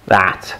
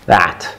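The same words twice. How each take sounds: The two takes are said the same way.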